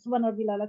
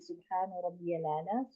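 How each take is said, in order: First: It is said fast and rushed. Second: It is said slowly and carefully.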